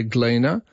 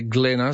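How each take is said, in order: First: GLEANER with a long ee, Glee-na; Gleaner, first vowel long. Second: GLENNA with a short e, as in Glen; Glenna, first vowel short. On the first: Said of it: "some people say Gleaner". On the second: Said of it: "some people say Glenna". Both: Shown as a demonstration.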